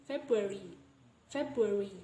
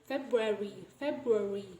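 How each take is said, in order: No difference in how they are said.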